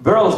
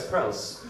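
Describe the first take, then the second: First: "Pearls" with a B for the P; accented "Pearls". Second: Said in the usual way. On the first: Shown as a demonstration. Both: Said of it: "it's pearls".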